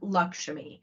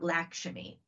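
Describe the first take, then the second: First: The name has a South Asian pronunciation. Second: The name has an Americanized pronunciation. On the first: The speaker calls it right. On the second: The speaker calls it wrong. "not Lakshmi"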